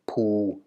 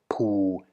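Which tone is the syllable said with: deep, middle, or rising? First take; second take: deep; deep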